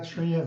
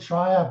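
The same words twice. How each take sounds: First: The name is said with Danish sounds. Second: The name begins like the English word 'try'. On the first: "So I prefer Trier. That's how we pronounce it in my country" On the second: "it's okay with Trier, but you know, then you get try harder"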